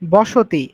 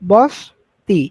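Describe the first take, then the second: First: The vowel after the s is pronounced. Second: The vowel after the s is dropped. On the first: "আমি প্রথমে কি উচ্চারণ করছি" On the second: "তাহলে আমার একটা ওকার চলে গেছে না?"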